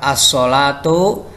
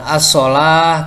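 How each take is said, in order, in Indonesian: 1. Kata itu diakhiri dengan bunyi 'tu'. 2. Kata itu diakhiri dengan bunyi 'h' yang lembut. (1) "ketika wasol" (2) "ketika waqaf"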